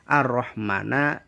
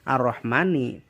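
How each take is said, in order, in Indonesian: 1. Kata ini diakhiri vokal a. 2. Kata ini diakhiri vokal i. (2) "dibaca ar-Rahmani"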